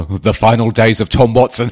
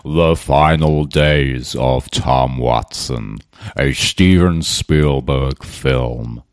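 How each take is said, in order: First: Said in the usual way. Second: Much lower, very slow, epic trailer narrator; movie trailer voice. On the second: Pretend. Pitching a tweet as a Hollywood film, mock trailer voice. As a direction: boom it out like a blockbuster announcer. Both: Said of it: "It could be a bloody Hollywood film".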